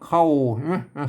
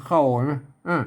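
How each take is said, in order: Both takes have the same delivery.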